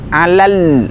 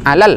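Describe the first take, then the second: First: The final lam is fully sounded and held. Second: The final lam is cut short and incomplete. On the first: The speaker calls it right. "masih ada uh, penyempurnaan huruf lamnya" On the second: The speaker calls it wrong. "bukan alal"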